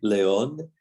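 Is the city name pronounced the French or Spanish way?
Spanish. The name is pronounced with Spanish sounds. The speaker calls it right.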